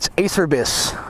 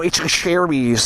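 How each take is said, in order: First: The first part sounds like the word Acer. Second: The first part does not sound like Acer. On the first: The speaker calls it wrong. "That's Acer. So I'm like, oh, it's Acerbis" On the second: The speaker calls it right.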